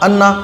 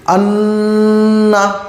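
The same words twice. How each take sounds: First: The n sound is short, without a nasal hold. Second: The n sound is held in the nose. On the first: The speaker calls it wrong. "ऐसे नहीं पढ़ेंगे" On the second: The speaker calls it right. "अब ये जो नाक में आवाज रुक रही है"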